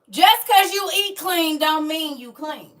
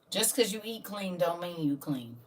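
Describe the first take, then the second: First: The sentence is said at a louder volume. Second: The sentence is said at a quieter volume.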